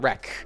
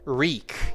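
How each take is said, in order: First: The vowel is short, like in 'wreck'. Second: The vowel is long, like in 'reek'. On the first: The speaker calls it wrong. "it's not a wreck. Wreck is something else" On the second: The speaker calls it right. "but the first one, wreak. Yes"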